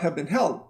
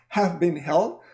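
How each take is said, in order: First: The words run together in one reduced group. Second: Each word is said separately and fully. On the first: The speaker calls it right. "but have been held" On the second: The speaker calls it wrong. "I don't say talks have been held"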